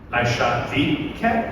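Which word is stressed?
the. The stress is on the word the.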